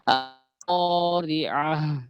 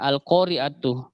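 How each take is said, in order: First: The word ends with a breathy h sound. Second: The word ends with a clear tu sound. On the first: The reading stops at this word. "kalau misalnya kita berhenti, kita wakaf, maka itu ta marbutohnya ... berubah menjadi ha besar" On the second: The reading continues into the next word. "kalau kita lanjut tetap dibaca tu"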